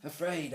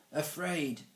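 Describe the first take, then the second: First: Higher exclamation; exclaiming. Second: Higher one-word prompt; supply the missing word. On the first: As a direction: cry out the prompted word. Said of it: "Alvis exclaimed". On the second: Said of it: "Mister Lace prompted". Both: A narrator's reading.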